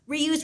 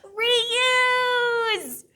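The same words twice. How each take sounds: First: It is said quickly. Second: It is said very loudly.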